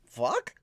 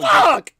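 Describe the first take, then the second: First: It is a question, rising at the end. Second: It is a forceful exclamation, falling at the end.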